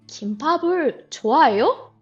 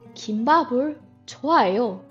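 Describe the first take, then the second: First: The voice rises at the end. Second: The voice falls at the end. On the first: It asks whether the listener likes kimbap. "Only the tone changes" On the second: It states that the speaker likes kimbap. "I like kimbap"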